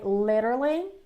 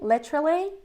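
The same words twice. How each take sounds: First: The middle consonant is a quick R-like flap. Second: The middle consonant is a clear T sound. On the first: "In American English would be like literally" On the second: "It's more British, I would say"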